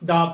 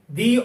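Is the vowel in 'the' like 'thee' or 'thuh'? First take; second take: thuh; thee. First: The word is said with a short 'uh' vowel. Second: The word is said with a long 'ee' vowel. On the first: The next word begins with a consonant sound. "We will pronounce the before consonant sounds" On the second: The next word begins with a vowel sound. "We will pronounce the before vowel sounds"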